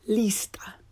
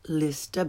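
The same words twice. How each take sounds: First: The i vowel is tense, like English 'ee'. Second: The i vowel is lax, like English 'ih'. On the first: The speaker calls it right. "but lista" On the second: The speaker calls it wrong. "Not lista"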